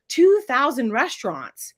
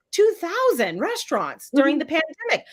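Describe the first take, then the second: First: "two thousand restaurants" slowed, each word weighted; emphatic stress. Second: Said in the usual way. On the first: Shown as a demonstration. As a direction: lean on "two thousand" slowly.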